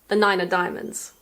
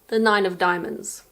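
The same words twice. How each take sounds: First: The word 'of' is reduced to a weak sound. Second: The word 'of' is pronounced in full.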